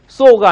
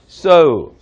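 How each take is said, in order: First: The vowel is a short plain 'o' sound. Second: The vowel glides from 'oh' to 'oo'. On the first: The speaker calls it wrong. "so가 아니라" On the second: The speaker calls it right. "오우 발음에 가깝습니다"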